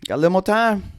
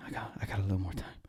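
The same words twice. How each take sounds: First: Higher and louder, elated; louder, higher burst of glad relief; excited relief. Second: Soft, fast murmur of relief; softer, hushed murmur of relief; quiet relief. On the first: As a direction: celebrate the reprieve out loud. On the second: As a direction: breathe it out to yourself, hushed. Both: Retold or imitated. Waking relieved from nightmare.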